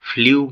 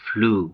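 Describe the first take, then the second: First: A 'y' glide comes before the vowel. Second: The vowel is a plain 'oo' sound. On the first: The speaker calls it wrong. "ভুল উচ্চারণ করে ফ্লিউ বলে থাকি" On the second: The speaker calls it right. "এর সঠিক উচ্চারণ হচ্ছে ফ্লু"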